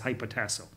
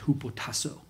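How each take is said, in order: First: The word is said with an English-style pronunciation. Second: The word is said with a Greek-style pronunciation. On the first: "It's not how you pronounce it in Greek" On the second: "It's hupotasso"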